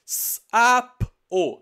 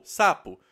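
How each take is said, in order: First: "S-A-P-O" soletrado alto, som por som; soletrando os sons. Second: Said in the usual way. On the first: Shown as a demonstration. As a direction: separe cada som de "S-A-P-O". (soletração sonora de "S-A-P-O") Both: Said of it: "Palavra uva".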